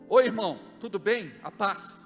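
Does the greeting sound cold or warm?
cold. The greeting sounds cold and curt. The greeting is a mere formality. The speaker calls it wrong.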